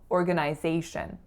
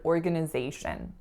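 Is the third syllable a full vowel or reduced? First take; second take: full; reduced. First: The third syllable has a full 'eye' vowel. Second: The third syllable has a reduced schwa vowel. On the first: This is the Canadian pronunciation. "that third syllable in Canada is pronounced as a full I" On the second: This is the American pronunciation. "the second and third syllables are both schwas"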